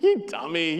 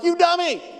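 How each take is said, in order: First: It is said in a playful, teasing tone. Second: It is said in a harsh, angry tone. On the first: The listener is being teased affectionately. "Man, stop it, stop it, shut your mouth" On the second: The listener is being genuinely insulted. "you idiot, what's wrong with you?"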